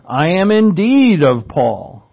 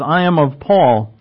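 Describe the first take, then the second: First: "indeed" leaned on, slower and a bit louder; stress on indeed. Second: Said in the usual way. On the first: Shown as a demonstration. Preacher showing the congregation the Greek emphasis, stress on "indeed". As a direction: dig into "indeed" like he's sticking to it. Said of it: "It's an emphasis". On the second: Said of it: "And it's an emphasis".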